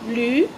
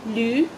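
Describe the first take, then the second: The two takes are said the same way.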